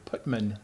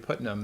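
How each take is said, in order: First: The name is said with m before n. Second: The name is said with n before m. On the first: This is how many locals say it. "they say Putman" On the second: This is the spelled form that locals avoid. "They don't say Putnam"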